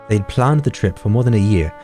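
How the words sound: It is read in a British accent. "doing a British accent is hard"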